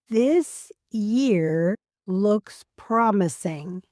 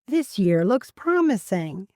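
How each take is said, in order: First: The sentence is spoken slowly. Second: The sentence is spoken at natural speed. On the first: "I'll say a sentence slowly" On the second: "then at a natural speed"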